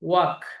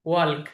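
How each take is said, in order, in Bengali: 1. এই শব্দে L ধ্বনিটি নীরব থাকে। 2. এই শব্দে L ধ্বনিটি উচ্চারিত হয়। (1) "কিন্তু উচ্চারণটা হবে ওয়াক" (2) "এল আমরা যদি উচ্চারণটা করি তাহলে শব্দটা হয় ওয়াল্ক"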